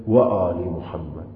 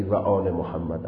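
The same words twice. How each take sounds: First: و آل محمد with و as a rounded w, slow; Arabic w sound. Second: و آل محمد with و as a Persian v; Persian v sound. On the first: Teacher showing the Arabic-style و to students, slow. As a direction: say و آل محمد slowly, lips rounded on و. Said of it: "حتماً باید بگی". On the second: Teacher showing the Persian reading of و, plain. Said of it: "لهجهٔ عربی نداری اگر بگی". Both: Shown as a demonstration.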